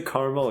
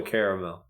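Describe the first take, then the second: First: "caramel" said as CAR-mul; "caramel" squeezed into two syllables, CAR-mul. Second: "caramel" said as CARE-uh-mel; "caramel" in full, ending in a clear MEL; three-syllable caramel. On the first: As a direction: drop the middle vowel of "caramel": CAR-mul. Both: Shown as a demonstration. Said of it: "Do you say caramel or caramel?".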